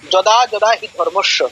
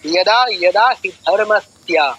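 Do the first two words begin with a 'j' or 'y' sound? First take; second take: j sound; y sound. First: The first two words begin with a 'j' sound. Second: The first two words begin with a 'y' sound. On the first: It is read the way Bengali is read. The speaker calls it wrong. "Bangla ভাষায় বলি কি" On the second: It is read the way Sanskrit is read. The speaker calls it right. "সংস্কৃতে বলি"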